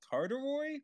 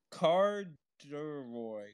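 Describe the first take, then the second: First: "Carduroy" pitched much higher, quick and rising like a question; bewildered high "Carduroy?"; puzzled question. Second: "Carduroy" drawn out very slowly, syllable by syllable; slow sounding out. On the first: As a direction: ask "Carduroy?" high, unsure of the word. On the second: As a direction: spell out "Carduroy" slowly by ear, falling at the end. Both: Shown as a demonstration.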